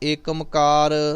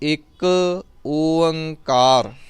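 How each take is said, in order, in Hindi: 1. यह एक शब्द के रूप में बोला जाता है, Ekamkar। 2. यह दो शब्दों के रूप में बोला जाता है, Ik Oankar। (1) "ਇਸ ਤਰ੍ਹਾਂ ਦੇ ਕੋਈ ਉਚਾਰਨ ਨਹੀਂ ਕਰਨੇ" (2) "ਤੁਸੀਂ ਇਸ ਦਾ ਉਚਾਰਨ ਕਰਨਾ ਹੈ ਇੱਕ"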